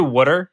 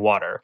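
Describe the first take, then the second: First: "water" as "wooter", the Philly way; imitated regional pronunciation. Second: "water" with the T softened to a D; reduced T. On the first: Denying the Philly habit, "water" imitated as "wooter". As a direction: say "water" with a short oo vowel. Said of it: "I don't do water". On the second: Shown as a demonstration. Explaining own Northeast PA speech, "water" with soft D. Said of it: "I do, like, reduce the T".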